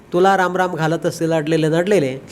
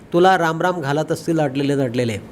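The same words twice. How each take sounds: The two takes are said the same way.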